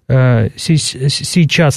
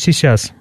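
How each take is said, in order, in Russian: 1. Первый согласный звучит ровно и чётко. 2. Первый согласный звучит шепеляво и шипяще. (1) "не произносится" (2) "произносится тоже шепеляво"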